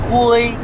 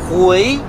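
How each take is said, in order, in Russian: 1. Тон держится высоко и ровно. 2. Тон поднимается от среднего к высокому. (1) "хуй это серый цвет, серый, типа такой" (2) "то значит возвращаться обратно"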